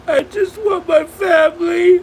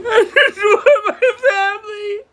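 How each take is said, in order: First: Louder, high sobbing plea; crying out. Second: High, broken laugh mixed with sobbing; a desperate laugh while crying; laughing through tears. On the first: Streamer pleading to viewers, loud real sobbing. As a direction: cry it out through tears. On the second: Streamer repeating her plea, laugh-crying. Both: Real, not acted.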